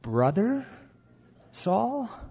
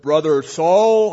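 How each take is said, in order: First: It is said doubtfully, like a question. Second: It is said boldly and confidently. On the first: The speaker doubts the man is really a brother. "Perhaps it was" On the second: The speaker fully accepts the man as a brother. "perhaps it wasn't bold. Perhaps it wasn't"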